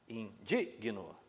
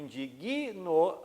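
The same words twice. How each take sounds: First: The stress falls on the syllable dig. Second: The stress falls on a syllable after the g. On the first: The speaker calls it right. "O certo é exatamente igual... igual ao adjetivo" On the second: The speaker calls it wrong. "a sílaba tônica vai recair sobre uma consoante, que é o G"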